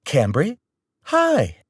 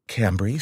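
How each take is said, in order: First: High, bright sing-song greeting; breezy, pretending nothing was heard. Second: Said in the usual way. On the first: Mom greeting the angry caller, sing-song. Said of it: "Mom said in a sing-song way". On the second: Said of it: "Mom said".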